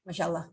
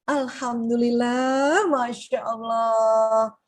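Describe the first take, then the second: First: Much softer, lower Masya Allah; low-energy Masya Allah. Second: Very slow, drawn-out Alhamdulillah Masya Allah; grateful awe. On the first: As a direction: mutter it without feeling. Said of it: "Nggak mungkin kan". (lirih tanpa semangat) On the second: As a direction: savour each word in thanks. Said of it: "kata energi tinggi apa coba". (syukur yang pelan dan tulus) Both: Shown as a demonstration.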